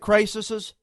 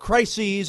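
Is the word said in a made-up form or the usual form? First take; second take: made-up; usual. First: The word is said in a made-up, nonstandard form. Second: The word is said in its usual, standard form. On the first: The speaker calls it wrong. "I used a Bushism, make my own word" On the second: The speaker calls it right. "as they say it, I guess is how you pronounce it"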